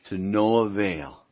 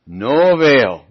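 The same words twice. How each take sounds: First: Said in the usual way. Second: No avail drawn out slowly and louder; emphatic repeat. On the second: Shown as a demonstration. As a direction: lean hard on No avail, slow and loud.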